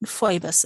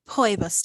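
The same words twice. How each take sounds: First: Phoebus opening on an F sound; accepted pronunciation. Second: Poebus opening on a P sound; technical pronunciation. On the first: Teacher allows the easier form, Phoebus with an F. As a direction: start Phoebus with F, "foy-bus". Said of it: "is fine to say". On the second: Teacher gives the technically correct form, Poebus with a P. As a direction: start Poebus with P, not F. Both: Shown as a demonstration.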